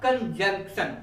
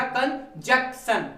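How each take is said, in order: First: कंजंक्शन with a clear n before the k, kan-jank-shan; correct pronunciation. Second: कंजक्शन said slowly with no n before the k, kan-jak-shan; wrong pronunciation. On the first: Teacher giving students the right pronunciation, clear and careful. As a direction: sound the n in कंजंक्शन plainly. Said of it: "इसका सही pronunciation क्या होगा?". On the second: Teacher demonstrating to students the common mispronunciation, slow and drawn out. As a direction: drag out the common wrong कंजक्शन, dropping the n sound. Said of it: "तो ये गलत पढ़ते हैं।". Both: Shown as a demonstration.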